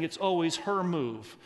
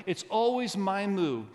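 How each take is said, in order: First: "her" stretched and emphasized; stress on her. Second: "my" pitched up and drawn out; stress on my. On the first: Retold or imitated. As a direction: lean on "her" instead of yourself. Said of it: "I hear some of you saying". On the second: Shown as a demonstration. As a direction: punch the word "my" slowly. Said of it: "I want you to emphasize".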